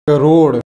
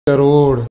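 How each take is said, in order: No difference in how they are said.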